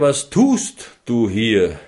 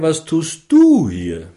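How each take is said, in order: First: The stress falls on the word tust. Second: The stress falls on the word du. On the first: The question is about what the person is doing with their time. "Die zweite Betonung wäre" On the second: The question is about who the person is and what they owe. "Die dritte Betonung wäre"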